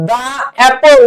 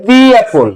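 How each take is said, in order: First: 'দা অ্যাপল' with a "daa" sound; 'দা' with an open ah vowel; wrong article sound. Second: 'দি অ্যাপল' with a "dee" sound; 'দি' with a long ee vowel; correct article sound. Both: Shown as a demonstration. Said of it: "এখন যদি vowel থাকে".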